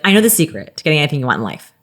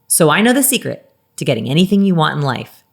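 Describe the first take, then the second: First: It is said in a casual conversational voice. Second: It is said in a polished TED Talk voice.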